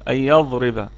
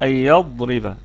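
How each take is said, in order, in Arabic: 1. الضاد تُنطق مثل الظاء. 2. الضاد مُفخَّمة ومُستطيلة. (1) "محدش يقول لي أي يضرب" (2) "لا"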